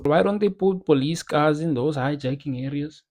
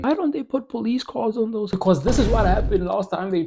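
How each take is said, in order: First: A failed attempt at a white South African accent, ends in a rise; bad white South African accent. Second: Higher, a second go at a white South African accent; white South African accent, retried. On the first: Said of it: "That is a shit white Danny accent". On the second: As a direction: redo the line in a white South African accent, stress on dont. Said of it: "It sounded colored more than anything". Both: Shown as a demonstration.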